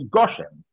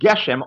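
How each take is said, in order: First: The first vowel is the kamatz form. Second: The first vowel is the segol form. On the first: This is the form used at the end of a verse. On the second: This is the form used mid-sentence.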